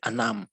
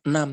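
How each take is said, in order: First: The first vowel sounds like 'a'. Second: The first vowel sounds like 'e'. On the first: It suits casual everyday speech. "tapi anam" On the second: It suits formal speech. "Bukan enam"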